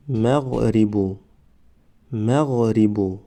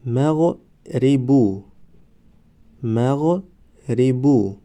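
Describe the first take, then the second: First: Said in the usual way. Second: مغربو stretched very slowly, syllable by syllable; drawn-out demo. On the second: Shown as a demonstration. Teacher modelling the word for students, very slow. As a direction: draw out مغربو slowly for the class. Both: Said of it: "ما باید همان حرف را فقط آوازش را تلفظ کنیم".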